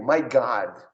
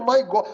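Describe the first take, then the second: First: "My God" with God's O opened to "ah". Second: "My God" with a rounded Brazilian "ó" in God; read as spelt. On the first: Shown as a demonstration. Teacher asks student to repeat, "My God" with open "ah". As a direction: open the vowel of "God" into a long American "ah". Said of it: "Eu abri o O". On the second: Acted. Student objects to teacher, "My God" with spelt-out O. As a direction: say "My God" as written, high-pitched objecting student. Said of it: "tá escrito".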